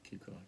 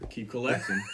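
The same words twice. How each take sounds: First: It is said at normal, quieter volume. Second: It is said louder, with more energy.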